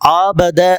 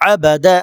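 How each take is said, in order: First: One vowel is stretched out long. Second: The vowels are all kept short. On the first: The speaker calls it wrong. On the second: The speaker calls it right.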